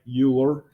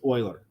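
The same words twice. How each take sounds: First: The name is said in an Americanized way. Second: The name is said the original, non-American way. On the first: The speaker calls it wrong. "all of us being Americans, we'd say something like" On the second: The speaker calls it right. "that is how you pronounce this"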